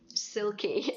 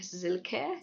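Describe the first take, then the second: First: The name begins with an S sound. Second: The name begins with a Z sound. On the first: This is the English way of saying the name. "as I would pronounce it in English" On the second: This is the German way of saying the name. "the way Germans pronounce it is more like Silke, sort of like with a Z rather than an S"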